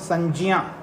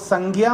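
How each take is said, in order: First: The middle cluster is pronounced with a 'j' sound. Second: The middle cluster is pronounced with a 'g' sound. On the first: The speaker calls it right. "Sanskrit पढ़ रहे हैं तो संज्ञा ज्ञा बोलना है" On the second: The speaker calls it wrong. "संज्ञा मत बोलिएगा"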